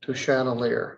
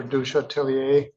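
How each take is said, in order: First: Duchatelier echoed as doo-SHAN-uh-leer; repeated pronunciation. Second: Duchatelier ending French-style in "lee-ay"; judge's own pronunciation. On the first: Shown as a demonstration. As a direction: say Duchatelier the anglicized way, ending "leer". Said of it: "How do you say it?". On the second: Real, not acted. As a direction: say Duchatelier as doo-sha-tee-lee-AY. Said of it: "that's how I've been saying your name".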